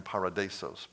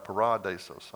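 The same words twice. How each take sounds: First: "paradisos" slipped off its second-syllable stress, para-DI-sos; wrong-syllable stress. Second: "paradisos" corrected to pa-RA-di-sos; second-syllable stress. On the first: Preacher fumbling the Greek word, wrong-syllable stress on "paradisos". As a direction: say "paradisos" with RA unstressed, leaning on DI. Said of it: "put the emphasis on the wrong syllable". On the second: Preacher correcting his Greek, second-syllable stress on "paradisos". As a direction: put the weight on RA in "paradisos". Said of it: "It's the second syllable". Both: Shown as a demonstration.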